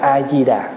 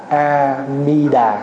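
First: The second syllable begins with a d sound. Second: The second syllable begins with an m sound. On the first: "người Việt Nam á, xưa nay đọc chữ mi thành chữ di" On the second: "Mình mới âm lại là A-mi-đà"

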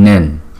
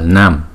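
First: The syllable ends with an n sound. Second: The syllable ends with an m sound. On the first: The speaker calls it right. "Nama Nawanawati Nen" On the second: The speaker calls it wrong. "không phải là Nam"

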